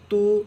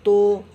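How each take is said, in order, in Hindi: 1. यह स्वर शुद्ध u जैसा लगता है। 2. यह स्वर o जैसा लगता है। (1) "सही पढ़ने का तरीक़ा मारूफ है" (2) "इसको मजहूल कहते हैं। और मजहूल पढ़ना गलत है"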